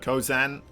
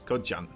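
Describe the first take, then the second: First: The name is said with a z sound. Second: The name is said with a j sound. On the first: "Instead of Kozan" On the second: "We don't really have a sound for, for the Z, so Jan"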